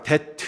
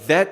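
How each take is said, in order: First: It begins with a hard 'd' sound. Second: It begins with a soft 'th' sound. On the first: The speaker calls it wrong. "굉장히 듣기 싫잖아요" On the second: The speaker calls it right. "th 뭐 이런 거 that 이렇게 안 하고"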